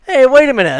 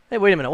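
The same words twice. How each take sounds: First: Louder and higher, startled hey wait a minute; suddenly catching something fishy; surprised exclamation. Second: Said in the usual way. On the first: Pretend. Mock discovery, growing suspicion.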